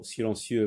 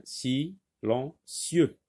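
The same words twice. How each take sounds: First: Said in the usual way. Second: "silencieux" slowly in three beats, si, len, cieux; teacher sounding out "silencieux" with pauses between syllables; split into syllables. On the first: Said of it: "c'est la syllabe". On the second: Shown as a demonstration. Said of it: "Donc c'est la syllabe".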